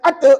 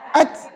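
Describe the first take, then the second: First: The final t bounces with a vowel echo. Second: The final t is held without any bounce. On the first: The speaker calls it wrong. "Mana boleh baca ata" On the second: The speaker calls it right. "Melantun ke? Tidak"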